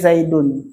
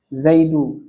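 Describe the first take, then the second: First: The name ends with an n sound. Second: The name ends on a vowel, without n. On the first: The speaker calls it wrong. "Nggak boleh Zaidun" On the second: The speaker calls it right. "kalau dipanggil iya Zaidu"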